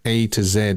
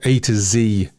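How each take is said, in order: First: The letter Z is said the non-American way. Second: The letter Z is said the American way.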